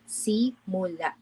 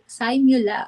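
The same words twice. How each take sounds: First: It is said as the Filipino word. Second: It is said like the start of English 'simulation'. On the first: The word means beginning. "Perhaps you have read this word as simula, which means beginning in Filipino" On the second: The word means simulation. "this may also be pronounced as si- simul- simula ... which is in short for simulation"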